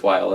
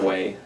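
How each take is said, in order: First: The name is pronounced the German way. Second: The name is pronounced the English way. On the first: The speaker calls it right. "It's the German" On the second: The speaker calls it wrong. "It's not Way"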